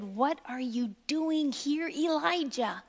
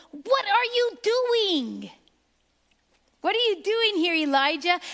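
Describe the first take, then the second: First: Soft, hushed voice of God; low whisper. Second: Higher, pressing voice of God; shaking call. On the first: God softly questioning Elijah in the cave, hushed. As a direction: ask it gently, barely above a murmur. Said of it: "the sound of a low whisper". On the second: The Lord shaking Elijah out of hiding, raised and pressing. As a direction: call out to shake him awake. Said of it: "when the Lord shakes us and go". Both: Acted.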